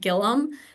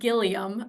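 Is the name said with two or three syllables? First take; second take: two; three. First: The name is said with two syllables. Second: The name is said with three syllables. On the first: The speaker calls it right. "but it's actually pronounced Gillum" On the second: The speaker calls it wrong. "it looks like Gilliam"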